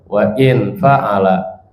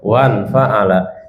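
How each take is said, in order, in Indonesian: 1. Hamzah memisahkan wa dari in. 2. Wa tersambung langsung ke n tanpa hamzah. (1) "ada juga yang bacanya wa in fa'ala" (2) "yang betulkan bacanya wan fa'ala"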